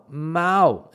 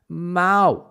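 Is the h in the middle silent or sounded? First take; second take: silent; silent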